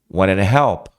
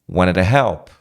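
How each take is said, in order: No difference in how they are said.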